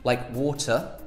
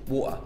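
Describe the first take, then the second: First: The middle T is clearly pronounced. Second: The middle T is dropped entirely. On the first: "we either pronounce the T" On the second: "Or you just don't pronounce it at all"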